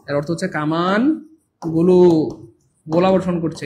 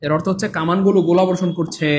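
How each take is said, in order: First: Slow repeat. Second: Said in the usual way. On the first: Shown as a demonstration.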